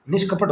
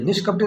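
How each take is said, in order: First: निष्कपट ending on a bare "t"; correct form without ी. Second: निष्कपटी with a final "ee"; wrong form ending in ी. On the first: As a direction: give the correction, निष्कपट stopped at the final ट. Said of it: "निष्कपट होता है". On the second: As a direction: show the error, adding "ee" at the end of निष्कपटी. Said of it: "निष्कपटी नहीं होता है". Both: Shown as a demonstration.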